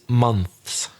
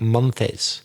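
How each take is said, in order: First: The s follows the th with no vowel. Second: An extra vowel sound comes before the final s. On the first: The speaker calls it right. "It's months. You've just got to put the S after the Th" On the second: The speaker calls it wrong. "you added an E sound. You said like months, but it's not"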